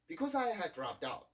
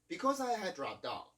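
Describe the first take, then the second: First: The two D sounds merge into one. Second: The two D sounds merge into one.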